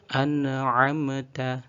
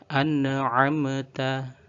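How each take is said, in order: The two takes are said the same way.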